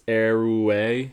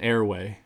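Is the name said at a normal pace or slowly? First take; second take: slowly; normal. First: The name is said slowly, drawn out. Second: The name is said at a normal pace. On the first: "if you really like try like slow it down" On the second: "I'm thinking airway"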